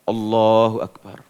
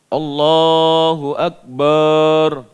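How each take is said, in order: First: The last syllable of Akbar is kept short. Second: The last syllable of Akbar is drawn out long. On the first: The speaker calls it right. "Jadi biasa saja" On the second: The speaker calls it wrong. "keliru. Karena barnya tidak panjang"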